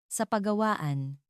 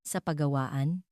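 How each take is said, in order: First: Slow, higher-pitched nervous invitation; a touch of nerves, drawn out slowly; slightly trembling voice. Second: "Sa pagawaan?" with a rising end; questioning echo. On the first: Narrator nervously invites Paolo to the workshop, slightly trembling. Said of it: "Medyo nanginginig ang boses ko". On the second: Paolo checks the invitation, questioning with a final rise. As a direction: echo "Sa pagawaan?" as a question, lifting the last word. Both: A narrator's reading.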